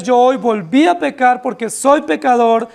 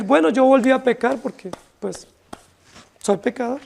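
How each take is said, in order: First: Sincere, pressing admission of sin; a mild contrite plea to God; earnest confession. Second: An offhand excuse that fades to a mumble; dismissive excuse. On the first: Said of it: "Lo que nosotros debiéramos decir es". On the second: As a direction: toss it off as a lazy self-excuse. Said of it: "Esa sería una autojustificación". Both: Retold or imitated.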